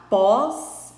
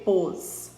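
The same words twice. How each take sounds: First: Pós with an open ó, like "paws"; open vowel pós. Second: Pôs with a closed ô, like "pohs"; closed ô in pôs, contrasted with pós; closed vowel pôs. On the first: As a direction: say pós slowly with the mouth wide open. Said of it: "em que lista as vogais têm acento agudo". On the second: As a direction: say pôs with a tight rounded vowel. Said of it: "em que lista as vogais têm acento circunflexo". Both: Shown as a demonstration.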